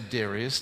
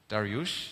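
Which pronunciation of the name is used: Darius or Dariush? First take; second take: Darius; Dariush. First: The name is said as Darius. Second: The name is said as Dariush. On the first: The speaker calls it wrong. "we don't say Darius" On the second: The speaker calls it right. "I learned now we say Dariush"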